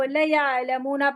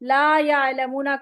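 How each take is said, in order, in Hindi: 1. पहला स्वर छोटा कर दिया जाता है। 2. पहला स्वर लंबा खींचा जाता है। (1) "माना बिल्कुल ऑपोजिट हो जाता है" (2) "ला"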